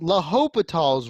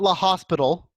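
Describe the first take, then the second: First: It sounds French, without the hospital s. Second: It sounds like the English word hospital. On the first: The speaker calls it right. "but it's it's L'Hopital's rule" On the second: The speaker calls it wrong. "It's not La Hospital. Please do not say La Hospital in my presence ever"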